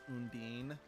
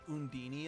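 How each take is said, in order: First: The name ends without an extra final syllable. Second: The name ends with an extra 'ee' syllable. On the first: This is the pronunciation used in the other games. The speaker calls it right. "in every other Tales game, it's pronounced Undine" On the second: This is the pronunciation used in this one game. The speaker calls it wrong. "they pronounce her name Undini in this game"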